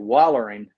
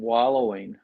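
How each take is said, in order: First: It is said the Southern way, ending in 'ering'. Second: It is said in a standard, non-Southern way.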